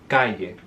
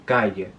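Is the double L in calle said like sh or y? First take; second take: y; y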